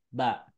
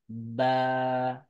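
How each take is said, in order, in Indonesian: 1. Vokalnya pendek. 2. Vokalnya dibaca panjang. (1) "itu suaranya pendek" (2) "ketika ada alif, maka suaranya jadi panjang"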